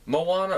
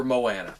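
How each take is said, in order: First: Moana as mo-AH-na; broad "ah" in the middle of Moana; first pronunciation. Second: Moana as mo-ANN-a; short "a" as in "can" in Moana; alternate pronunciation. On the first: Southern vlogger unsure of the name, broad-ah pronunciation. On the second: Southern vlogger unsure of the name, short-a pronunciation. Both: Shown as a demonstration. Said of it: "my pronunciation of things will be off".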